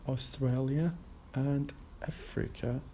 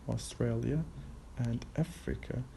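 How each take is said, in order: Both takes have the same delivery.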